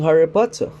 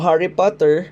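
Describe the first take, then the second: First: It is said in a British English accent. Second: It is said in an American English accent.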